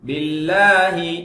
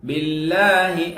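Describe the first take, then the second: The two takes are said the same way.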